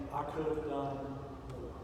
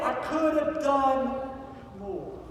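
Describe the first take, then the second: First: Soft, low, hushed regretful murmur; quiet regret. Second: Anguished outcry. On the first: Pretend. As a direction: say it softly as a quiet lament. Imagined regret before heaven. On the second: A narrator's reading. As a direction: cry it out in despair, then drop away. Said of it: "Schindler begins to weep".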